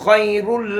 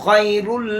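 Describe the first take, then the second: Both takes have the same delivery.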